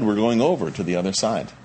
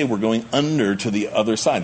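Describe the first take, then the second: First: Over stressed and lifted, falling after. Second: Said in the usual way. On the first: Shown as a demonstration. Preacher correcting what Jesus actually promised, stress on over. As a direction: lean hard on over. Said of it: "Jesus didn't say". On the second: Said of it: "That's kind of what he's saying".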